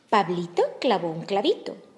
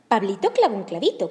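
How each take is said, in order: First: The phrase is said at a normal pace. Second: The phrase is said at a faster pace.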